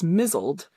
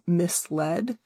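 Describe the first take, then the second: First: The middle consonant is a z sound. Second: The middle consonant is an s sound. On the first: The speaker calls it wrong. "she thought it was pronounced as mizzled" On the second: The speaker calls it right. "she realized it was misled"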